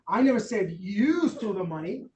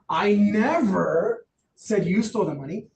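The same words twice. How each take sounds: First: The word "you" carries the strongest stress. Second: The word "never" carries the strongest stress. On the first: Someone else may have stolen the money. "Could have been Jason" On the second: It was not said at any time. "Not at all"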